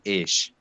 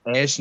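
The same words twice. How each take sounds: First: ऐश as Gulf Arabic for "what", a long "eh" then sh. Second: ऐश with the open Hindi vowel, as in having fun; Hindi-style ऐश. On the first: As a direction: say ऐश as "ehsh", not the Hindi word. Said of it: "लेकिन ये है ऐश". (खाड़ी अरबी वाले ऐश का उच्चारण) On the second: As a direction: say ऐश as the everyday Hindi word for luxury. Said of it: "ऐश नहीं". (हिंदी वाले ऐश का उच्चारण) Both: Shown as a demonstration.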